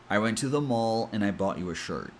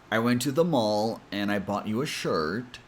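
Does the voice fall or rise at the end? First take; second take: fall; rise. First: The pitch falls at the end. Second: The pitch rises at the end. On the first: The speaker is done. The speaker calls it right. "if you go down in pitch and say it like this" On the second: The speaker seems to have more to say. The speaker calls it wrong. "a lot of people tend to go up in pitch even if they're done"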